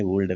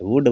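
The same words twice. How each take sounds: First: "वुड" said as "vuld", with an L before D; L wrongly sounded. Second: "वुड" with short u straight into D; silent L. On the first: Teacher showing what not to say, L sounded in "वुड". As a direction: voice the silent L inside "वुड". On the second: Teacher showing how would is said, no L in "वुड". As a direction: drop the L from "वुड". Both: Shown as a demonstration. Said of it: "नहीं बोला जाता".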